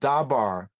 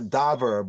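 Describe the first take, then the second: First: Both vowels are 'a' sounds. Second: The first vowel is 'a', the second 'e'. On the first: "not Dabar" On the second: "not Daber"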